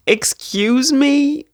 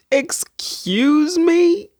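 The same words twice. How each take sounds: First: Slow, high incredulous "Excuse me?"; mock outrage. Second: Slower and higher "Excuse me?", rising at the end; even bigger disbelief. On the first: To viewers, gasping at the gorgeous cover, incredulous. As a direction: draw it out, scandalised and delighted. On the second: To viewers, topping her first gasp, stunned. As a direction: stretch it out, utterly floored. Shocked at book cover. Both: Real, not acted.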